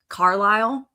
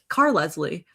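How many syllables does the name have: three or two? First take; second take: two; three. First: The name is said with two syllables. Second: The name is said with three syllables. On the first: The speaker calls it right. "what is his real name" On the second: The speaker calls it wrong. "I mispronounced"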